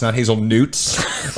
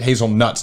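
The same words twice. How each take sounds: First: "hazelnutes" with an added "-utes" ending, slowly; mock mispronunciation. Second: Said in the usual way. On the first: Shown as a demonstration. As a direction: drag out "hazelnutes" as a wrong word.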